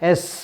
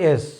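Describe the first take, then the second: First: The s ends with a hissing sound. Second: The s is short, without a hissing sound. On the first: The speaker calls it right. "সাপের মতো একটা hissing sound হবে" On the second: The speaker calls it wrong. "আমরা বলি এস। No"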